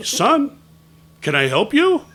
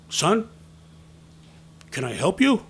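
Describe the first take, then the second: First: Much louder, higher, pointed question; insistent questioning. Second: Raised, louder, pointed question; questioning a stray kid. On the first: Man gets no answer from boy, asking loudly and insistently. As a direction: demand an answer from the kid. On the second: Man taps boy on the shoulder, questioning firmly. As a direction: challenge the kid politely but firmly. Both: Retold or imitated.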